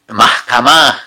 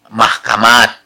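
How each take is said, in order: First: The word ends with an h sound. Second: The word ends with a t sound. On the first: This is the current form. "belakangan ke sini nih berubah" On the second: This form is not used now. "kita tidak sebut mahkamat"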